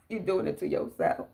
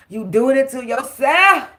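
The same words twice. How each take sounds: First: Whisper. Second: Said in the usual way. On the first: Real, not acted. Repeated line, dropped to whisper.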